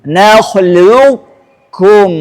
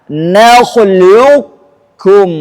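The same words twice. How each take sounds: Both takes have the same delivery.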